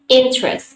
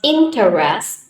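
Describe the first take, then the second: First: The word is said with two syllables. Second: The word is said with three syllables. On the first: The speaker calls it right. "two syllables" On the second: The speaker calls it wrong. "not interest"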